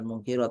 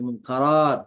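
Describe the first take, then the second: First: The vowel after 'mungk' is an 'i'. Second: The vowel after 'mungk' is an 'a'. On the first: The speaker calls it wrong. "bukan mungkirat" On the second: The speaker calls it right. "tapi mungkarat"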